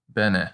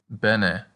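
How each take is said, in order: First: "bene" with two short e's, BEH-neh; Latin demo. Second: Said in the usual way. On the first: Shown as a demonstration. Teacher models bene for repetition. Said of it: "It sounds just like benefit". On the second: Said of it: "so we can practice with bene".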